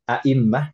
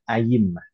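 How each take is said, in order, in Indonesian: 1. Hamzah datang sebelum mim ganda. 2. Bunyi y datang sebelum mim ganda. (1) "Bisa pakai hamzah" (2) "Atau pakai ya ayimmah"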